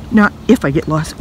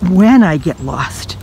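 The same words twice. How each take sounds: First: Said in the usual way. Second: "when" stressed with a falling tune, said slowly; slow down and lean hard on "when". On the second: Shown as a demonstration. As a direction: correct yourself, slowly punching "when".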